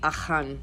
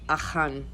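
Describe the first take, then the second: First: The name is said with a Hebrew pronunciation. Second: The name is said with a Hebrew pronunciation.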